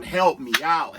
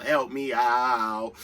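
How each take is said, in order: First: Said in the usual way. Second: Help me out stretched very slowly and lower; drawn-out plea. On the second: Real, not acted. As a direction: drag it out, begging the viewers. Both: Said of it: "So come on".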